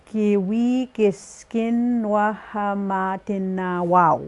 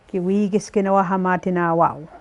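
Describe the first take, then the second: First: Slow deliberate phrase, word by word; carefully pace out each syllable; slow teaching model of the phrase. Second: Said in the usual way. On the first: Shown as a demonstration. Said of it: "syllable by syllable". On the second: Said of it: "the way they would say it".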